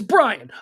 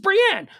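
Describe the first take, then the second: First: The name is said rhyming with Ryan. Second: The name is said ending in an -enne sound. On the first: The speaker calls it right. "because it's not. It's Brian" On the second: The speaker calls it wrong. "let's not pretend like the natural way to pronounce B R I A N is"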